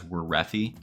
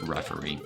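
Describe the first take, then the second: First: The name begins with a W sound. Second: The name begins without a W sound. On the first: The speaker calls it wrong. "I always pronounce it as Werethi, because there's a W at the beginning" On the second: The speaker calls it right. "but apparently it's just referee"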